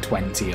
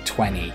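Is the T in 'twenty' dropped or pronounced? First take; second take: pronounced; dropped. First: The T in the middle is clearly pronounced. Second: The T in the middle is dropped. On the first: The speaker calls it right. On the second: The speaker calls it wrong.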